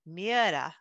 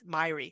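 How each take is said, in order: First: The name sounds like 'Mee-era'. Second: The name sounds like 'My-ree'. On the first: This is how Scandinavians say it. "my Scandinavian friends, they've said it's pronounced" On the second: This is how people in the US say it. "in the United States ... it's"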